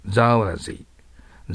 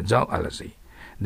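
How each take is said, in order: First: "ゾーラジー" said slowly, long ゾー then ラジー; slow dictionary pronunciation. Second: "ゾーアラジー" with a small ア after ゾー; with inserted ア. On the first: Teacher modelling the dictionary sound of zoology, slowly. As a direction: draw out "ゾーラジー" syllable by syllable. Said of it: "発音記号はゾーラジーとなります。". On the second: Teacher showing a better way to say zoology, carefully. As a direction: slip a light ア between ゾー and ラジー. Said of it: "ゾーアを入れることがいいですね。". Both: Shown as a demonstration.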